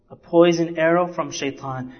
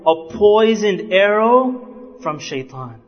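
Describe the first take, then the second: First: Said in the usual way. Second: Slow, weighty warning with poisoned drawn out; slow emphatic. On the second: Shown as a demonstration. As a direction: lean on poisoned and let each word land slowly.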